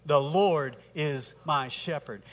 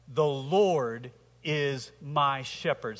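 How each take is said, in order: First: Unhurried, leading the congregation; slow recitation with the church. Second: Very slow, weighing each word; slow, deliberate declaration. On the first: Pastor leading the congregation in unison, slowly. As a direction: say it together, steady and slow. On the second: Preacher reciting the psalm to the congregation, slow and solemn. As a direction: lay it down slowly, like a creed. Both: Shown as a demonstration. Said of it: "Say that with me".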